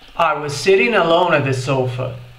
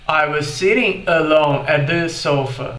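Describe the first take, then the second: First: It is said quickly with the words run together. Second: It is said slowly with each word more separate. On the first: "ocorreu o que a gente chama de redução" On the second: "de uma forma mais lenta"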